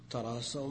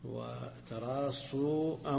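First: The word ends in an 'ow' diphthong. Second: The word ends in a long 'oo' vowel. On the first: They already lined up closely. "ماضي انتهوا" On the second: It is a command to line up closely. "أمر بالتراص"

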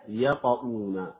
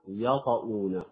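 First: The first sound is light and open. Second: The first sound is light and open.

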